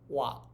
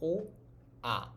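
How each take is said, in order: First: Two vowels are said fast, blended into one syllable. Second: Two vowels are said slowly as separate sounds. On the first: "pronounce it faster and faster" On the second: "Try making the sounds consecutively"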